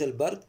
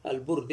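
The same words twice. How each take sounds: First: "البرد" said al-bard, with a; short a after the b in "البرد"; a vowel. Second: "البرد" said al-burd, with u; short u after the b in "البرد"; u vowel. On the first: Teacher rules out the other reading, al-bard with a. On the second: Teacher tells students which word is meant, al-burd with u. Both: Shown as a demonstration. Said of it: "البرد ليس البرد".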